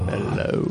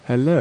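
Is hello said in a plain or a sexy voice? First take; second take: sexy; plain. First: It is said in a sexy voice. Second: It is said in a plain voice.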